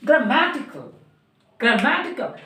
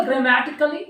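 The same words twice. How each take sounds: First: "grammatical" as gruh-MAT-i-kal, stress on MAT; correct pronunciation. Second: "grammatically" with a full first vowel, "gra-MAE-ti-kali"; the mistaken, evenly weighted "grammatically"; wrong pronunciation. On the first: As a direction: hit the second syllable of "grammatical", falling. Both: Shown as a demonstration. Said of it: "ये गलत है ना?".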